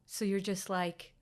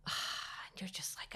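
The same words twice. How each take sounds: First: Said in the usual way. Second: A sigh that drops into a slow, soft whisper. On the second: Retold or imitated. Telling a friend about the silent scan, whispered with a sigh. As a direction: let the breath go and barely voice it.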